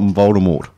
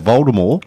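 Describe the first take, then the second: First: The final T is pronounced. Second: The final T is silent. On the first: The speaker calls it wrong. "not Voldemort" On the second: The speaker calls it right. "with a silent T"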